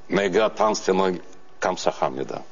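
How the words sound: It is said harshly, in a northern Korean accent. "мы-то учили северокорейский диалект, а там такой язык"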